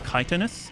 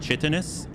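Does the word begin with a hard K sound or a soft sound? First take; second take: hard K; soft sound. First: The word begins with a hard K sound. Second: The word begins with a soft sound. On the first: This is how it is said here in English. "and here it's" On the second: This is how it is said in French. "So in French, it's"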